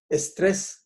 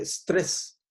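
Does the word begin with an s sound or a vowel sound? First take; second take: vowel sound; s sound. First: The word begins with an added e vowel. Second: The word begins directly with an s sound. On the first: The word has been adapted to Spanish. "Nosotros decimos estrés" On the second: The word keeps its original English form. "nadie dice estrés"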